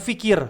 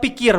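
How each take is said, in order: First: The word begins with an f sound. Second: The word begins with a p sound. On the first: The speaker calls it wrong. "bukan fikir" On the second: The speaker calls it right. "yang benar adalah pikir"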